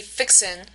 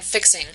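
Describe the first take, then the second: First: "fixin'" with a final n, no g; dropped G. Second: Said in the usual way. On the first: Shown as a demonstration. Lecturer showing how they actually say it, "fixin'" without the g. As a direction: end "fixin'" on n, not ng. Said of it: "so they actually say". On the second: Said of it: "rather than".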